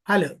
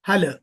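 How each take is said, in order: No difference in how they are said.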